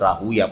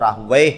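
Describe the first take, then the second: First: The name ends with a 'ya' sound. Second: The name ends with a 'wayh' sound. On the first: This form avoids a syllable shared with a name of Satan. "मुहद्दिसीन आमतौर पर इसको राहुवै नहीं बल्कि राहूया पढ़ते हैं" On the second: This is the commonly known form of the name. "आमतौर पर मशहूर जो नाम है वो राहुवै है"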